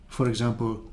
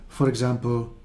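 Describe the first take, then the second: Both takes have the same delivery.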